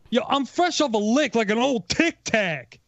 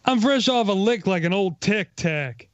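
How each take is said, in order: First: It is said with more energy. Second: It is said with lower energy.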